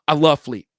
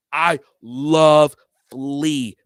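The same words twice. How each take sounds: First: Said in the usual way. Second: Drawn out. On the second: Shown as a demonstration. Vlogger insisting he loves [name], stretched very slowly.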